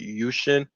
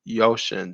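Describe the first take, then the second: First: The first syllable sounds like 'you'. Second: The first syllable sounds like 'yo'. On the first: This is how the company's chief executive says it in America. "when he's on C N B C, he pronounced it Yushin" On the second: This is how Chinese speakers say it. "my friends who are Chinese. They pronounced it Yoshin"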